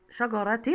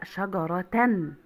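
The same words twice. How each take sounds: First: شجرة ending in -tin; تنوين بالكسر. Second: Slow شجرة ending in -tan; تنوين بالفتح. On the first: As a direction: sound out شجرة with a final -tin. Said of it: "لا، شجرة". (نطق شجرة بكسرتين في آخرها) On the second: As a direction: draw out شجرة to a final -tan. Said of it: "يبقى التنوين شجرة". (نطق شجرة ببطء بفتحتين في آخرها) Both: Shown as a demonstration.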